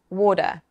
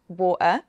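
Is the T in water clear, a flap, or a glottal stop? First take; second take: flap; glottal stop. First: The T is a flap, like a D. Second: The T is replaced by a glottal stop. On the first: "a flap, which can sound like a small D" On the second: "a glottal stop, which is the uh sound"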